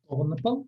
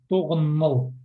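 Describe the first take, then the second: First: The consonant before 'al' is a p sound. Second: The consonant before 'al' is an m sound. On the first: This is the written, literary form. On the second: This is how people really say it.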